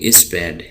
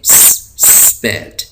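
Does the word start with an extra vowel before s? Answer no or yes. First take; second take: yes; no. First: An extra vowel is added before the s. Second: It starts directly with the s sound. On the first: The speaker calls it wrong. "हम इसको नहीं पढ़ेंगे इस पैड" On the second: The speaker calls it right. "इसको हम पढ़ेंगे स्पैड"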